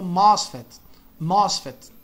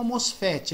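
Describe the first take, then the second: First: Mosfet as MOSS-fet, open O; English pronunciation. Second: Mosfet as mos-FEH-chee; Brazilian pronunciation. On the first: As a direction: stress the start of mosfet and stop on the T. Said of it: "eles pronunciam como". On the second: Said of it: "A gente pronuncia como". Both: Shown as a demonstration.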